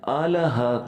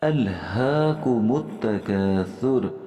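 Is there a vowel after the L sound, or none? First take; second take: vowel; none. First: An extra 'a' vowel follows the L. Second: The L is closed with no vowel after it. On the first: The speaker calls it wrong. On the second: The speaker calls it right.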